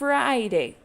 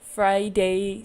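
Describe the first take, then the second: First: The stress is on the first syllable. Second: The stress is on the second syllable. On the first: The speaker calls it right. "The part that I say louder is the beginning" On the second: The speaker calls it wrong. "we don't say"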